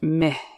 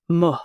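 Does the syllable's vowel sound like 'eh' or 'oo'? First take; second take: eh; oo. First: The vowel is a short 'eh' sound. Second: The vowel is a rounded 'oo' sound. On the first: This is the everyday spoken form. "Sounds more like meh in spoken Arabic" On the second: This is the formal form. "but more formal pronunciation, it's mu"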